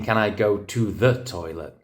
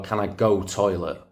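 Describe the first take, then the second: First: TO THE picked out in "can I go to the toilet"; standard English correction. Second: Put-on quoting a Manchester kid, dropped "to the"; Manchester dialect. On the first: Retold or imitated. Teacher correcting a pupil's grammar, stressed "to the". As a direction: correct it, spelling out "to the" distinctly. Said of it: "I think you mean". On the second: Teacher quoting Manchester pupils, Manchester dialect. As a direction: say it like a Manchester schoolkid. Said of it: "the kids in Manchester would say".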